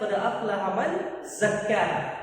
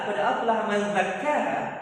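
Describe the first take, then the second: First: Zakkaha begins with a buzzing z sound. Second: Zakkaha begins with a voiced th sound. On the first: Lucky is the one who purifies himself. The speaker calls it right. "ketika Allah mengatakan" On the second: Lucky is the one who slaughters himself. The speaker calls it wrong. "kalau kita baca dengan za ... pakai za yang mirida itu"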